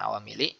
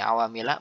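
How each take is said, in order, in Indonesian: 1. Kata itu berakhir dengan vokal i. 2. Kata itu berakhir dengan vokal a. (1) "bukan awamili" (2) "kenapa ini awamila"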